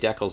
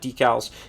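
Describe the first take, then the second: First: Decals is said with a Canadian pronunciation. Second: Decals is said with a non-Canadian pronunciation. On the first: This is how people in Canada say it. "it's Canada. We say decals" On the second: This is how people outside Canada say it. "instead of decals"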